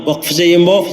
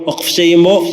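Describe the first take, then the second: No difference in how they are said.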